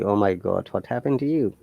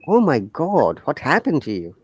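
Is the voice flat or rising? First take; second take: flat; rising. First: The pitch stays flat without expression. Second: The pitch rises with expression. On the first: The speaker shows no feeling. "plainly ... Without having any expressions. Like robotic way" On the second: The speaker is asking a genuine question.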